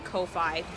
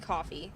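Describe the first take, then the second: First: The word is not said like 'coffee'. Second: The word is said like 'coffee'. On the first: This is how some other people say it. The speaker calls it wrong. "I know some people say Ko-fi" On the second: This matches the idea of buying someone a coffee. The speaker calls it right. "It's supposed to be coffee"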